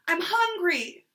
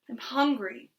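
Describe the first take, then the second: First: It is yelled loudly. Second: It is said at a normal volume.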